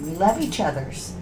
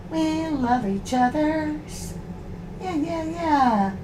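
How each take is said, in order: First: Said in the usual way. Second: Higher, slow sugary coo to the dog; soft singsong dog talk, drawn out. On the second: Real, not acted. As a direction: croon it sweetly to calm the dogs. Soothing the growling dogs.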